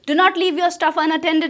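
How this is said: It is said in an angry tone. "गुस्से में बोलो"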